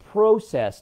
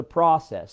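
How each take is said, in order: First: "process" with long o, PRO-sess; Canadian pronunciation. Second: "process" with ah, as PRAH-sess; American pronunciation. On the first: Teasing Canadians about their words, "process" as PRO-sess. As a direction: say "process" the Canadian way, rhyming first part with go. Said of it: "you guys say differently in Canada". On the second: Showing Canadians the US way, "process" as PRAH-sess. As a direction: say "process" the US way, with an open first vowel. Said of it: "words like that". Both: Shown as a demonstration.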